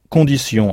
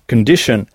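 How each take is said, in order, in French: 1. Il se prononce avec des sons français, et se termine par sion. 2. Il se prononce avec des sons anglais, et se termine par shun. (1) "comment direz-vous condition en anglais?" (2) "au lieu de prononcer sion, on prononce shun"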